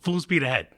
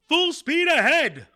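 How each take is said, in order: First: It is said in a calm, normal voice. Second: It is yelled loudly with full energy.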